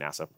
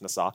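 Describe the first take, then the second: First: It is said like the English word NASA. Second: It is said with Hebrew vowels, not English ones. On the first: The speaker calls it wrong. "So don't say NASA" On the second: The speaker calls it right. "but it's pronounced nasa"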